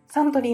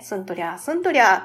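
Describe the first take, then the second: First: It is said in the usual way as 'santorii'. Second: It is read letter by letter as 'sun-torya'. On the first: The word is recognized as the brand name. The speaker calls it right. "これって、サントリーのことって" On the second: The spelling was read as romaji by a child. The speaker calls it wrong. "SUN のところをすん。TORY はなんて読むかわからへんから、とりゃーみたいな感じで読んでて"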